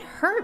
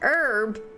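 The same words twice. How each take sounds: First: The word begins with a sounded h. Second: The word begins with a silent h.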